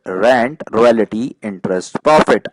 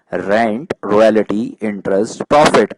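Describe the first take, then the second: No difference in how they are said.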